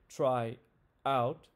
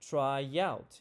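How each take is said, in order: First: The two words are kept apart without linking. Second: A y sound links the two words together. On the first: The speaker calls it wrong. "We don't say try out" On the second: The speaker calls it right. "You can hear that Y sound being added"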